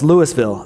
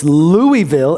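First: Louisville said as LOO-is-ville, the s sounded; Louisville with a clear s in the middle, LOO-is-ville; son's pronunciation. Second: Louisville said slowly as LOO-ee-vil, no s; Louisville drawn out as LOO-ee-vil, the s silent; dad's pronunciation. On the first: Nine-year-old son insisting on his reading, Louisville said LOO-is-ville. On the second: Dad correcting his son, Louisville slowly as LOO-ee-vil. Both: Retold or imitated. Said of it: "he's arguing with me about how to say".

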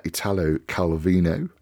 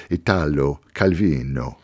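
First: Said in the usual way. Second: The name Italo Calvino said with a light Italian accent, Ee-TAH-lo Cal-VEE-no. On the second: Real, not acted. Radio host naming the author, in a light Italian accent. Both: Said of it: "I don't know why I did the accent".

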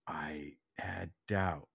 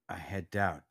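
First: Breathy whisper, slow and low; whispered admission. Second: Said in the usual way. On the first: Real, not acted. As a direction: confess the doubt in a slow whisper.

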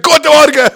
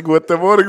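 First: High, blasting shouted greeting; shouting. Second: Said in the usual way. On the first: Pretend. Employee greets colleagues at work only able to shout, shouted. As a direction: yell the greeting across the room. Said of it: "Du kannst nur noch schreien die ganze Zeit". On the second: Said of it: "am Morgen sagen die".

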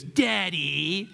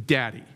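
First: High, drawn-out mock call rising at the end; estranged son's taunt. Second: Short, falling tough-cowboy retort; lightly voiced Western father, curt and unimpressed; John Wayne. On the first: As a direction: stretch it out high, needling your father. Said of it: "like that". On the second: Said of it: "And then John Wayne goes".

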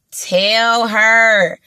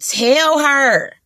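First: "Tell her" said again, leaning harder on it; insistent repeat. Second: Said in the usual way. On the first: Shown as a demonstration. Urging men to compliment women, leaning harder. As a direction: drive the point home on "Tell her".

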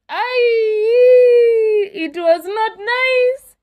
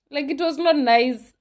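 First: High, slow, half-joking sob on the words; mock crying wail. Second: Said in the usual way. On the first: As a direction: wail it like a hurt child, not quite in earnest. Repeats line, then breaks into cry.

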